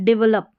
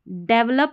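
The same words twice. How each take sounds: First: The first syllable is pronounced 'dee'. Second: The first syllable is pronounced 'deh'. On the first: "या डी" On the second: "डी ई को डे"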